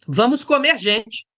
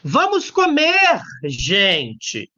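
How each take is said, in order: First: There is no pause before the last word. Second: There is a pause before the last word. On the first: The people are what is going to be eaten. The speaker calls it wrong. "Se você não coloca a vírgula, você vira um canibal" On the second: The people are being addressed and invited to eat. The speaker calls it right. "Gente é vocativo. Deve ser separado por vírgula"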